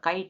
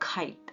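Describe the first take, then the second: First: The k is said without a puff of air. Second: The k is said with a puff of air. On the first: This is how local speakers say it. The speaker calls it wrong. "ನಾವು ಹೇಳುವಾಗ ಕೈಟ್ ಅಂತೀವಿ" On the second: This is how native speakers say it. The speaker calls it right. "ಅವ್ರು ಹೇಳುವಾಗ ಖೈಟ್ ಅಂತಾರೆ"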